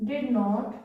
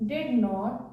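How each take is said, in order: The two takes are said the same way.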